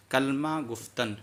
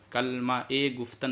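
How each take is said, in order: First: Slow "कलमा गुफ्तन", no ए between the words; without linking vowel. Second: "कलमा ए गुफ्तन" with an added linking ए; wrongly linked reading. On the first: Teacher modelling the correct reading, no linking vowel. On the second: Teacher showing the reading to avoid, linking vowel added. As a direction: insert a clear "ए" between "कलमा" and "गुफ्तन". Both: Shown as a demonstration. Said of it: "कलमा ए गुफ्तन नहीं".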